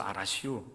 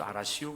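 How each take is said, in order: First: Soft, low 알았슈 in Chungcheong dialect. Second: Low, soft 알았슈 in Chungcheong dialect as a promise. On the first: Preacher demonstrates Chungcheong 알았슈 as "I heard you", soft and low. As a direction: say 알았슈 lightly like a Chungcheong local, just acknowledging. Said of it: "이런 의미로서". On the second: Preacher demonstrates Chungcheong 알았슈 as a promise, low and soft. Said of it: "의미로서". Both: Shown as a demonstration.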